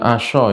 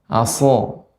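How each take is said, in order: First: The consonant sounds like 'sh'. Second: The consonant sounds like a plain 's'. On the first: The speaker calls it wrong. "jangan asyo ya" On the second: The speaker calls it right. "tapi aso"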